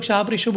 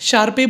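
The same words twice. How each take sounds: First: Sharpe as one syllable, "sharp", before ratio; alternate pronunciation. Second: Sharpe said as two syllables, "shar-pay"; alternate pronunciation. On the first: Presenter showing viewers the other reading, Sharpe ratio as "sharp ratio". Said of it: "बोलते हैं". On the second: Presenter showing viewers how some people say it, Sharpe as "shar-pay". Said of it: "बोलते हैं कुछ लोग". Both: Shown as a demonstration.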